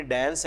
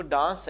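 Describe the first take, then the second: First: ڈانس with a fronted American "a", like "dans" in "cat"; American pronunciation. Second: ڈانس with a long British "ah", like "dahns"; British pronunciation. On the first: Teacher giving the American example, ڈانس said with the "cat" vowel. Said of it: "American میں ڈانس ہے". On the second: Teacher giving the British example, ڈانس said as "dahns". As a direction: say ڈانس the British way, with a broad open vowel. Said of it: "British میں وہ ڈانس ہے". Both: Shown as a demonstration.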